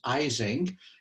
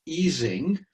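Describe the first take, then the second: First: The name is said the American way. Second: The name is said the German way.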